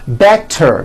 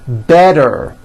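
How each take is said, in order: First: The middle consonant sounds like a T. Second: The middle consonant sounds like a D.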